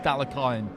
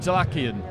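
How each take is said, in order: First: The stress is on the second-to-last syllable. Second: The stress is not on the second-to-last syllable. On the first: This follows the Eastern European stress rule. The speaker calls it right. "the stress goes on the penultimate syllable, so the last but one, so it would be Dalakyan" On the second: This is the natural English reading. The speaker calls it wrong. "naturally for us it would be Dalakian"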